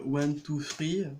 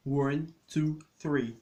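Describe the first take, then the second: First: "three" said with an r, like "free"; "three" as /fʀi/, no TH, French way; French-style three. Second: "three" with tongue between teeth, proper TH; "three" said /θri/, tongue pinched between the teeth; English TH in three. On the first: («three» prononcé «fri», à la française) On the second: («three» avec le TH anglais, langue entre les dents) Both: Shown as a demonstration. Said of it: "C'est un T H".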